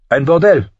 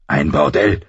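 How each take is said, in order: First: High, loud, mocking schemer; Littlefinger. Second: Low, contained indignation; understated anger. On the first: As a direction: announce it gleefully in a high-pitched voice. Littlefinger's amused answer to Ned. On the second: A narrator's reading. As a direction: voice Ned's restrained outrage.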